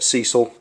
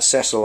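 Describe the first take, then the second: First: The name is said the American way. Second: The name is said the British way. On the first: This is how the name's owner says it. "but Cecil, that's how you say it" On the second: This is how people say it in Britain. "we pronounce that Cecil, I think, in this country"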